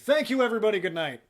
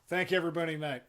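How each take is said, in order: First: The words are said clearly. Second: The words are slurred together.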